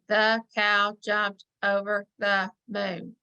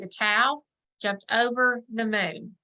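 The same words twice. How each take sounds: First: It is read robotically, word by word. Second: It is read smoothly in phrases.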